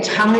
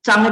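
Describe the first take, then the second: First: "Chang" with a strong puff of air after the ch; aspirated CH. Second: "Chang" started without a puff, like Zhang; unaspirated CH. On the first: Teacher reading the word for long, "Chang" with aspirated ch. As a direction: say "Chang" with breathy aspirated ch, as pinyin C. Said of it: "tulisannya C ya, bukan Z". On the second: Teacher reading the word for grow, unaspirated "Chang". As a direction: hold back the air on the ch of "Chang". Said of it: "dia pakai Z". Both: Shown as a demonstration.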